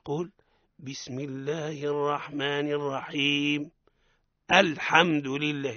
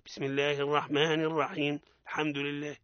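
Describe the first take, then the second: First: A clear glottal stop starts alhamdu. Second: The glottal stop before alhamdu is swallowed. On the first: The speaker calls it right. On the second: The speaker calls it wrong.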